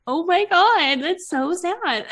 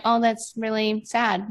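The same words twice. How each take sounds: First: High, slow, teary "Oh my God, that's so sad"; mock-sobbing sympathy, pitched up; sappy teary gush. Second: Flat, unmoved "Oh, that's really sad"; cool indifferent remark; detached shrug. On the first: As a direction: gush like a weepy new mom at the TV. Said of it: "without being like". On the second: Retold or imitated. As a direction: say it like you couldn't care less. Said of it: "I would have been like".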